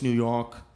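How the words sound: The R in York is dropped. The speaker calls it right. "Skip the R always"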